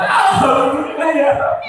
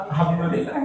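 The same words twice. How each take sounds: First: High, hammed-up cry of gratitude; mock wailing with overdone joy; tearful thanks. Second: Soft, understated mock gratitude; a half-hearted little thanks, laugh nearby; muted thanks. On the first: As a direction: burst into high, acted weeping thanks. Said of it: "Nangis saya". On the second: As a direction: say it small and quiet. Contrasting thanks for older wife.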